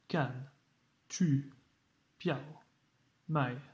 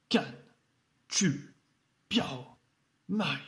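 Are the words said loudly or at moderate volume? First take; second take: moderate; loudly. First: The words are said at a moderate volume. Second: The words are shouted loudly with strong falls. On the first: "c'est pas obligé de faire ça" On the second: "c'est de crier, bien accentué, fort"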